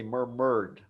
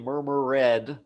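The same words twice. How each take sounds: First: The ending is a plain D sound. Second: The ending is an extra syllable, like 'id'. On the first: The speaker calls it right. "we say murmured" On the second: The speaker calls it wrong. "We don't say murmured"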